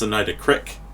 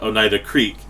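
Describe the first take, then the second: First: The word is said with regional pronunciation. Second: The word is said with standard pronunciation. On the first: This is how people back home say it. "it's Oneida Crick" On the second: This is how people elsewhere say it. "it's not Oneida Creek"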